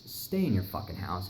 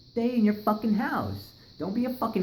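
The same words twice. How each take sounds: First: Said in the usual way. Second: Emphatic warning. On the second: Real, not acted. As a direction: drive the warning home. Repeats warning to listeners.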